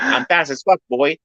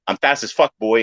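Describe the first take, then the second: First: High, lightly squeaky quote; tossing off the line in a light helium voice; mock Danny quote. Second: Lightly raised quote; plain-ish retelling. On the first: Quoting Danny from TikTok, in a lightly higher voice. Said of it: "he's always like". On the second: Retold or imitated. Repeating the line to his friend, lightly voiced. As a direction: say the line again, less pushed. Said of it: "I'm just gonna use that line".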